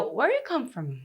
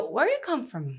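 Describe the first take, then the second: First: The word do is dropped between the others. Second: The word do is dropped between the others.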